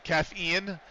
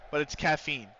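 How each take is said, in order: First: "Caffeine" said as three syllables, caff-ee-in, ending on Ian; Caff-Ian pronunciation. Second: Said in the usual way. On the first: Shown as a demonstration. Streamer explaining a username's pun, Caffeine said caff-ee-Ian. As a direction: split "Caffeine" so it ends like the name Ian. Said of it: "he doesn't pronounce his username that way". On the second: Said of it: "No, it's caffeine".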